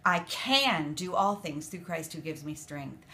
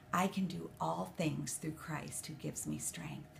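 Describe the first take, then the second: First: CAN pressed harder than the rest; can gets the weight, the line falls to the end; stress on CAN. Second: Said in the usual way. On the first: Shown as a demonstration. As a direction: lean on the word can, then fall off. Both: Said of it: "I was changing the emphasis on each word".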